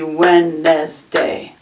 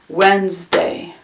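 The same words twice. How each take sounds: First: It is said with three full syllables. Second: It is said with only two syllables. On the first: "it looks like it could be Wednesday" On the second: "Wednesday has two syllables"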